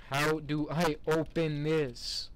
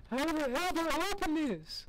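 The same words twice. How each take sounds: First: Slow, spaced-out words in the usual pitch; slow exasperation. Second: Very high, strained comic whine; exasperated squeal. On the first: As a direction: ask it slowly, weighing each word. Stuck, asks slowly, then squeals it. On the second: Gamer stuck at a door, exasperated squeal. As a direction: squeal the question way up high in frustration. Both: Real, not acted.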